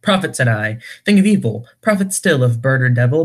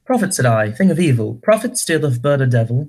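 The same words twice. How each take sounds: First: Said in the usual way. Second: Verse in a put-on British accent; British-accented dramatic poem reading. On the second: Shown as a demonstration. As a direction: recite it with a fake British accent. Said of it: "read a scene with a British accent".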